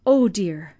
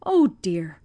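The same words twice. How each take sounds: First: Oh dear pushed out louder and voiced, a mild acted sob. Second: Breathless whispered oh dear, no voice at all; whispered sob. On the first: Old servant grieving for the poor family, louder voiced sob. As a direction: grief breaking through into voice. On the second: Acted. Old servant hearing of the family's hunger, whispered sob. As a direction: let the grief choke it to a whisper. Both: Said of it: "sobbed Jenny".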